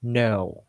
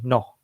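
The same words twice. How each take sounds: First: "No" drawn out, gliding downward; downward American tone. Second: "No" short with a level tone; flat, un-American tone. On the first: Teacher shows what Americans say instead, gliding tone. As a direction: stretch "No" and let it slide down. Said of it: "Instead, they say". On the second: Teacher shows what Americans don't say, level tone. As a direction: say "No" without any glide. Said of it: "Or they don't say". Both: Shown as a demonstration.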